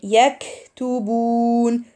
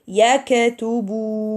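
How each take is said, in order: First: The k is released with a puff of air. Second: The k is released with an echoing bounce. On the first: The speaker calls it right. "instead of reading yaktubun" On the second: The speaker calls it wrong. "some may read it as"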